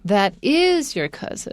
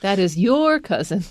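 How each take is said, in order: First: The stress falls on the word is. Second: The stress falls on the word your. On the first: A doubt is now confirmed as fact. "所以重点在这个 is 上面" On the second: The person belongs to you, not someone else. "It's not my cousin"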